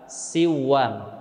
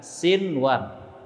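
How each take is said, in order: First: The n merges into the following w sound. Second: The n is pronounced clearly before the w. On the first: The speaker calls it wrong. "tidak boleh dibaca dengan siwan" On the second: The speaker calls it right. "akan tetapi dibaca dengan sinwan"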